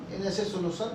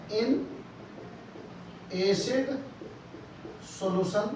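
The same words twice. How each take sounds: First: Said in the usual way. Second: Slow dictation. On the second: Shown as a demonstration. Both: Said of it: "लिख रहा हूं मैं".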